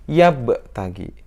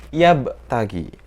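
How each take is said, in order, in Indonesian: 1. Huruf b memantul ringan, hanya setengah. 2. Huruf b memantul ringan, hanya setengah.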